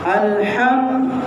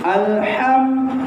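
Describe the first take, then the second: Both takes have the same delivery.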